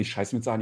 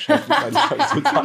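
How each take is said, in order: First: Quiet laugh through the panic; half-laughed panicked thought. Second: Much higher, strained panic; high-pitched mock panic; squeaky panic. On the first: Retold or imitated. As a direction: giggle the words under your breath. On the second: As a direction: squeak it out in desperation.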